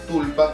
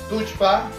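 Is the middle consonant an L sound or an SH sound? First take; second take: L; SH. First: The middle consonant is an L sound. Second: The middle consonant is an SH sound. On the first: This is the form everyone reads as written. "como lo pueden leer todos" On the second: This is the Cusco Quechua pronunciation. "como les decimos, pero que tiene que ver con el quechua cusqueño, ¿no? La pronunciación es cusqueña"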